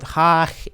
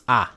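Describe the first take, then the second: First: It starts with a breathy h sound. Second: It starts straight on the vowel, no h. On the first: The speaker calls it wrong. "not ha" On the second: The speaker calls it right. "you would say a"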